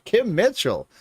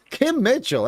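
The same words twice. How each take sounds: First: Excited. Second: Even higher, louder gush of the name; more excited. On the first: Excited repeat. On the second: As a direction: squeal "[name]" up high. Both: Real, not acted.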